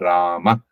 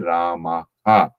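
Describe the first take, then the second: First: The word ends in an abrupt stop. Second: The final breath is released as a full 'ha'. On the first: "That that's how they they usually are Rama" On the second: "but we say Rama ha"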